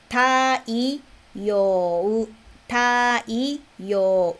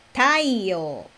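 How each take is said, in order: First: "Taiyo" drawn out as ta, i, yo, u; syllable by syllable. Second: Said in the usual way. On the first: Shown as a demonstration. Teacher breaks down "Taiyo" for learners, syllable by syllable. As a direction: spell out "Taiyo" slowly sound by sound, with gaps.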